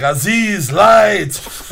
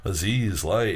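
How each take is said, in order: First: High, loud mock yell for light; belted-out impression of a movie line; imitated movie shout. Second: Low, understated mimicry of a shouted line; offhand, toned-down mock repeat; mocking echo. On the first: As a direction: call out like the exasperated archaeologist in a film. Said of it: "and he's like". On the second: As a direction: parrot the command back under your breath. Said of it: "just kinda, like, mocks him".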